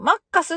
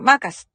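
First: It is read in flat Japanese katakana style. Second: It is said with the lilt of 'circus'. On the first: Locals would probably not understand it. The speaker calls it wrong. "スペルのカタカナで言っても多分通じない" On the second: Locals understand it means McDonald's. The speaker calls it right. "サーカスみたいなテンションでマカスっていうか"

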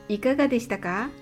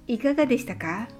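The two takes are said the same way.

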